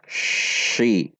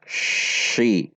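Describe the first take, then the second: First: The consonant is an sh sound. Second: The consonant is an sh sound.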